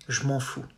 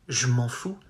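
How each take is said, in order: First: Je is squeezed together with m'en. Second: Je is squeezed together with m'en.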